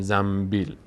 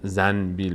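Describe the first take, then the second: First: An m sound is said before the b. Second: An n sound is said before the b. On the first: The speaker calls it right. "میگیم زنبیل" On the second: The speaker calls it wrong. "نمیگیم زنبیل"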